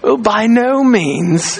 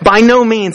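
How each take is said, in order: First: It is said in a posh British gentleman's accent. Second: It is said in the speaker's plain voice.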